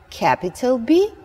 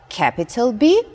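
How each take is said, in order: The two takes are said the same way.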